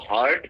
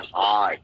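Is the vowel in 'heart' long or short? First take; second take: short; long. First: The vowel in the word is short. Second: The vowel in the word is drawn out. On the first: The speaker calls it wrong. "इसको हार्ट pronounce नहीं करेंगे" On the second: The speaker calls it right. "थोड़ा खींच के"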